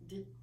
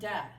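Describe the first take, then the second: First: The consonant is clipped short with no vowel. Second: The consonant is followed by an added vowel sound. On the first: The speaker calls it right. "That's it" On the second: The speaker calls it wrong. "not duh"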